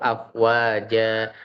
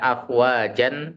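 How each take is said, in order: First: The word ends with a lengthened a sound. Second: The word ends with a short a and n.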